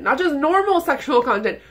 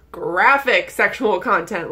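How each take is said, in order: First: "normal" lifted and stressed, then a falling tune. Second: "graphic" hit hard, slow and deliberate; slow stress on graphic. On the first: Ranting to viewers, stressing "normal". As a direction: lean on "normal" to set up the correction. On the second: Correcting her viewers, slowly stressing "graphic". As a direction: drag out "graphic" to correct herself. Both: Shown as a demonstration.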